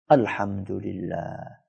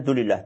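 First: It is said slowly and fully, every syllable drawn out. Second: It is rushed and clipped to its last part. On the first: The praise is said with heartfelt appreciation. The speaker calls it right. "dengan penuh penghayatan yang baik ... Ustaz gitu ya lama" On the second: The praise is said just to get it over with. The speaker calls it wrong. "Karena pengen cepat selesai, maka dia bacanya dulillah"

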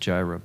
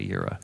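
First: The word begins with a J sound. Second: The word begins with a Y sound. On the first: This is the usual English form of the name. The speaker calls it wrong. "we pronounce it Jireh" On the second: This is the original form of the name. The speaker calls it right. "but it's Yahweh Yireh"

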